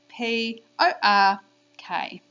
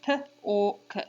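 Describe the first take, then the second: First: "P O R K" spelled slowly, "O R" chanted sing-song; name each letter of "P O R K", lilting louder on "O R". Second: "P or k" as three separate sounds, puh, or, kuh; sounding out. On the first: Teacher models spelling for children, sing-song digraph in "P O R K". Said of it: "we say the digraph in a sing-song voice". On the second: Teacher does the sounds for children, "P or k" segmented. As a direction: break "P or k" into phonemes with gaps. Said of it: "now we do the sounds". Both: Shown as a demonstration.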